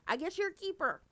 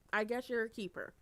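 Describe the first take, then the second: First: High, loud teasing exclaim; loud high teasing verdict; excited exclaim. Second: Said in the usual way. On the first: Shown as a demonstration. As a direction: shout the verdict playfully.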